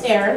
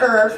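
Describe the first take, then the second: First: The word is said with an "air" vowel. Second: The word is said with an "er" vowel. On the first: The speaker calls it right. "That's how you pronounce it here" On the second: The speaker calls it wrong. "it's not er, first of all"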